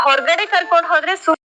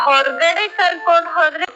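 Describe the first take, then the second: The two takes are said the same way.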